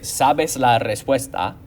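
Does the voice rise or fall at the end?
fall. The voice falls at the end, like a statement.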